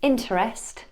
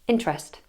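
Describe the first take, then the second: First: The unstressed middle vowel is pronounced in full. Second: The unstressed middle vowel is dropped entirely. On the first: "in the word interest" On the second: "we'd hear interest"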